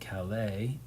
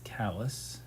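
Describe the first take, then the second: First: The name does not sound like 'callous'. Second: The name sounds like the word 'callous'. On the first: This is how the name is said elsewhere. "anywhere else in the world, you would live in Calais" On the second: This is how the name is said in Maine. "Calais in Maine is callous"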